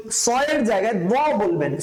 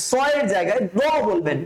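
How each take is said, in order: Both takes have the same delivery.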